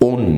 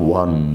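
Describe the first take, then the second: First: The word sounds like 'own'. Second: The word sounds like 'one'. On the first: The speaker calls it wrong. "ওন না" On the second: The speaker calls it right. "এটার উচ্চারণের বেলায় আমরা একটু ওয়ান the match, ঠিক আছে"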